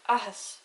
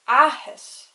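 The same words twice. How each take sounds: First: The first vowel is short and plain. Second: The first vowel is drawn out and emphasized. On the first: "If it didn't have the fada, it would be like" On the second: "see how I put a lot more emphasis on the first A because it has the fada"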